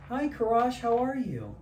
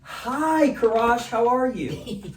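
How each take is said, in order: First: The greeting sounds gentle and friendly. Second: The greeting sounds lively and expressive. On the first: The caller has an amiable personality. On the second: The caller has an expressive personality. "Expressive, right?"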